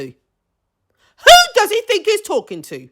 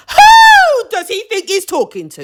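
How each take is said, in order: First: High, slow, stretched-out disbelief; slow indignant repeat. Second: High, loud indignant shout; outraged shout. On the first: Repeating it to viewers, slow and high with indignation. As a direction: drag each word out in disbelief. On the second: To viewers about the rude boyfriend, a high outraged shout. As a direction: yell your outrage at the TV. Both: Real, not acted.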